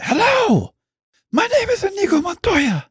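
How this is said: It is said dramatically, like Inigo Montoya.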